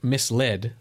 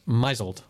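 First: It is said as two parts, mis-led. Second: It is said as one word sounding like muzzled. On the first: The speaker calls it right. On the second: The speaker calls it wrong.

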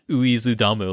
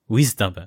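First: It is said as four syllables, starting with oo. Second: It is said as two syllables, starting with w. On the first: The speaker calls it wrong. "not uizudamu, like I was reading it like an idiot" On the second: The speaker calls it right. "it was wisdom, wisdom"

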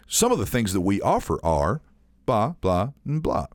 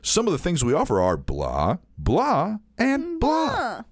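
First: It is read flatly with little inflection. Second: It is read with lots of inflection. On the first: The speaker calls it wrong. "it just sounds fucking lame" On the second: The speaker calls it right. "so then you put all this inflection on it"

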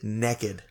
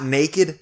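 First: It is said in a Southern accent. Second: It is said in a Northern Midwest accent. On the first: "They said naked" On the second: "Not naked"

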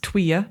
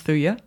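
First: The word begins with a 'tw' sound. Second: The word begins with a 'th' sound. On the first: The speaker calls it right. "the wood is pronounced Tweya" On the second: The speaker calls it wrong. "not Thuya"

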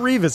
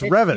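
First: The name rhymes with Beavis, with a long ee. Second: The name does not rhyme with Beavis. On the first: The speaker calls it wrong. "It's not Revis" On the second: The speaker calls it right. "it's Revis"

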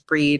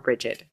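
First: The name is said as one syllable, 'breed'. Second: The name is said as two syllables, 'bridget'. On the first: "it was pronounced Breed" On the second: "You didn't pronounce it Bridget"

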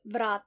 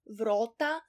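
First: It is said in standard Slovene, with A. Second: It is said in Styrian, with a wide O.

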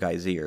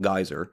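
First: The name is said with an Icelandic pronunciation. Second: The name is said with an English pronunciation. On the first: "as they say it" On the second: "actually called Geyser"

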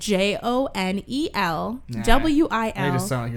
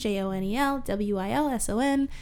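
First: The letters are spelled out slowly. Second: The letters are spelled out fast.

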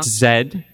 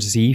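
First: The letter is said as zed. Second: The letter is said as zee.

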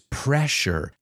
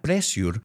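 First: The middle consonant is an 'sh' sound. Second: The middle consonant is an 's' sound. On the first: The speaker calls it right. "It's pressure. ... It's like you're telling somebody to be quiet. Shh" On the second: The speaker calls it wrong. "It's not pressure"

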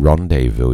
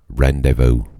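First: The word is said in a posh, refined way. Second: The word is said in a plain, everyday way.

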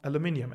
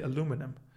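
First: It is said with a British pronunciation. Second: It is said with an American pronunciation.

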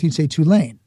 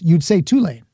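First: It is said the Northern way. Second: It is said the New Orleans way.

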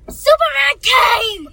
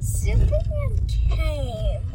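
First: It is said loudly. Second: It is said quietly.

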